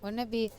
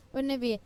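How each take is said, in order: Both takes have the same delivery.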